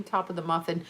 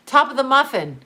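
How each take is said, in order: First: Said in the usual way. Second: Sing-song sitcom slogan, punched higher; louder, higher catchphrase. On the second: Shown as a demonstration. Remembering the Seinfeld muffin shop line, loud and bright. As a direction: belt out the shop slogan proudly. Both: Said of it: "See, I got it".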